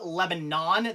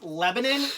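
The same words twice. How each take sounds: First: The last syllable is said like 'on'. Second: The last syllable is said like 'in'. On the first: This is how the spelling reads. "but it's spelled Lebanon. There's no I, it's an O" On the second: This is how local people say it. "it's apparently it's pronounced Lebanon"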